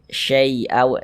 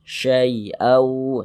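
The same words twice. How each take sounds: First: The first syllable leans toward an i sound. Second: The first syllable is soft and gentle. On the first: The speaker calls it wrong. "Jangan sampai condong ke huruf i. Jangan dibaca syai" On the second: The speaker calls it right. "kita lunakkan, jangan baca syai tapi sya. Syai'au seperti itu"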